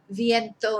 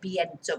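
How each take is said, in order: First: The word begins with a v sound. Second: The word begins with a b sound. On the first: "I personally wouldn't recommend you to pronounce it as a B" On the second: "that's probably just the way they say it, it's their accent"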